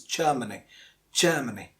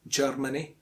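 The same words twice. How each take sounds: First: Germany as JUH-muh-nee; silent R. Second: Germany as JURR-muh-nee; R pronounced. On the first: Teacher giving the correct form, Germany with silent R. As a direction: say "Germany" without sounding the R. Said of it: "the R is silent". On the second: Teacher showing what some of us say, mispronounced Germany. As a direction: sound the R in "Germany". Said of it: "it's not Germany because the R is silent". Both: Shown as a demonstration.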